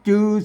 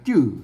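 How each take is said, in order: First: The word is said with a plain mid tone. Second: The word is said with the tho tone. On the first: "จือเสียงสามัญนะครับ" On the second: "จื้อนะครับเสียงโทปกติ"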